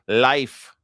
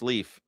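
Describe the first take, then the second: First: The vowel sounds like the word 'life'. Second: The vowel sounds like the word 'leaf'. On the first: This is how people there say the name. "that's how they call it" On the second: This is how people in the United States say the name. "it's Leaf in the United States"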